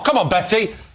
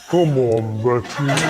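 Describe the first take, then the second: First: It is said at normal speed. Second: It is said very slowly, in slow motion.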